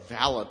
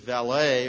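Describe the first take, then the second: First: The word is said the English way. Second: The word is said the American way.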